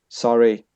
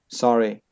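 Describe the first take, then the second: Both takes have the same delivery.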